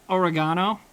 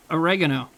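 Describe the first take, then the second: First: Oregano stressed on GAH, as or-uh-GAH-no; the other pronunciation. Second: Said in the usual way. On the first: Shown as a demonstration. Streamer checking chat's version, oregano pronounced or-uh-GAH-no. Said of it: "are you guys saying oregano". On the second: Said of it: "is that not how I'm supposed to say it".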